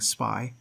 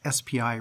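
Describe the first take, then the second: First: It is said as one word, like spy. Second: It is spelled out as three separate letters. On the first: The speaker calls it wrong. "rather than saying SPI" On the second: The speaker calls it right. "I'm pronouncing this SPI"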